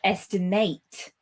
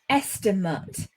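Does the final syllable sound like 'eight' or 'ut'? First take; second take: eight; ut. First: The final syllable is a full 'eight' sound. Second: The final syllable is a weak 'ut' sound. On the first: It is used as a verb. "then we pronounce it eight" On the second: It is used as a noun. "we pronounce that ut"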